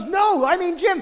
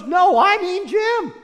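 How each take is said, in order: First: High, insistent no, I mean Jim; insistent correction. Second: Louder, slower, higher, hammered no, I mean Jim; emphatic repeat. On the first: Woman at the party insisting, pitched high. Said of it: "she goes". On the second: Woman repeating herself to doubters, loud and slow. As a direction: she digs in, each word slow and loud. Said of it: "She goes". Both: Retold or imitated.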